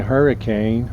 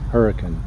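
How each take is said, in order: First: It is pronounced the way out-of-towners say it. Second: It is pronounced the way local residents say it. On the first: The speaker is not from the area. The speaker calls it wrong. "then you're an out of towner" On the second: The speaker is from the area. The speaker calls it right. "if you're from Utah"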